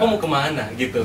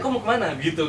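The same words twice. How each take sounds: First: The phrase has a drawn-out, swaying regional melody. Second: The phrase has a plainer, less drawn-out melody. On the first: This is how people from a friend's region talk. "Ada yang lebih ngayu, kayak di dia kan" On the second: This is how people from the speaker's own region talk. "Kalau di tempat gue kan"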